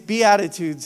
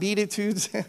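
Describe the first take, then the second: First: The word sounds like 'be attitudes'. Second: The word does not sound like 'be attitudes'. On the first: The speaker calls it right. "It is Beatitudes" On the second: The speaker calls it wrong. "It's not Beatitudes"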